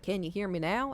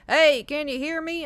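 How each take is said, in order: First: Said in the usual way. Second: Loud, high, drawn-out holler; calling out. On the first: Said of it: "it was crystal clear". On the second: Retold or imitated. Mom's boyfriend shouting over the car speaker, calling out. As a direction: holler it down a bad phone line.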